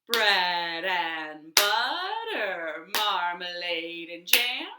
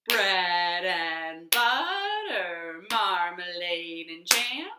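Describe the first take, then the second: Both takes have the same delivery.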